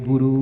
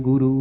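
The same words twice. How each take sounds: Both takes have the same delivery.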